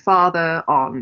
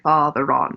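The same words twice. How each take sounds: First: No R sound joins the two words. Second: An R sound joins the two words. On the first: The speaker calls it wrong. "you don't say" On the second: The speaker calls it right. "you say father on. You pronounce the R"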